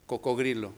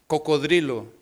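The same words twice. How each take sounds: First: "cocodrilo" with g replacing d, as coco-GRI-lo; softer, lower pupil's slip, "cocodrilo" with gr for dr; mispronounced. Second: "cocodrilo" said correctly with a clear d in -drilo; correct pronunciation. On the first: ("cocodrilo" mal dicho, con g en vez de d) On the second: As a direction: model "cocodrilo" like a teacher, d before r. ("cocodrilo" bien pronunciado, con d) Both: Acted. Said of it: "siempre y le decían".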